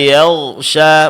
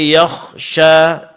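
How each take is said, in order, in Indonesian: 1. Konsonan tengah adalah bunyi gh bersuara. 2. Konsonan tengah adalah bunyi kh tak bersuara.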